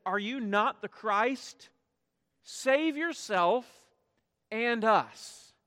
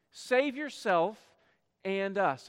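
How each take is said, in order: First: Mocking taunt, slowed and raised; railing criminal. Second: Said in the usual way. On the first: Criminal on the cross railing at Jesus, mocking taunt. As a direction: jeer at him from the next cross. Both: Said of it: "he's railing at him".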